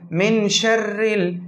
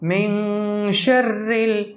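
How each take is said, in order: First: The n goes straight into the nose, unheld. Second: The n is nasalized softly and briefly held. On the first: The speaker calls it wrong. "जो गलत तरीक़ा है पढ़ने का बग़ैर इख्फा के" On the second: The speaker calls it right. "आवाज़ को छुपा लेना है"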